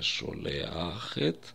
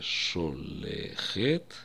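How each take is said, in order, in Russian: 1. Последние две гласные: a и e. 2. Последние две гласные: e и e. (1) "и не «шолеахет»" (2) "слово мы произнесем не «шолехет»"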